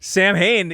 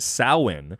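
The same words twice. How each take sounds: First: It is said with an English-style pronunciation. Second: It is said with a Gaelic pronunciation. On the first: The speaker calls it wrong. "is actually not pronounced that way" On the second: The speaker calls it right. "as it is a Gaelic word and thus a Gaelic pronunciation"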